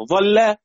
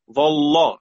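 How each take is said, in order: First: "ظل" ending in a thin l and fronted a; light lam. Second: "ظل" ending in a thick l and backed a; heavy lam. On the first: Teacher gives word before pausing on it, light lam. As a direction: say "ظل" higher, with a light final "la". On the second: Teacher gives word before pausing on it, heavy lam. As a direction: say "ظل" with a dark, heavy final "la". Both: Shown as a demonstration. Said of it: "تفخم ولا ترقق؟".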